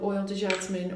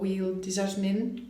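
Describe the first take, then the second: First: The first word is said the English way. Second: The first word is said the French way.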